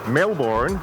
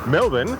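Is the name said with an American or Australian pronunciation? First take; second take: American; Australian. First: The name is said the American way. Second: The name is said the Australian way.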